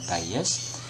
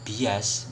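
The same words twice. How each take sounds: First: It is pronounced with English sounds. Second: It is pronounced with Indonesian sounds. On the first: "bahasa Inggrisnya bias ya, dalam pelafalan bias" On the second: "lafalnya menggunakan lafal kita di Indonesia"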